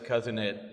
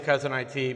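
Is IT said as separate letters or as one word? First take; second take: one word; letters. First: IT is said as the single word it. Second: IT is spelled out as two letters. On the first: "My wife says Cousin It, like the Addams Family" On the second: "I say Cousin I T"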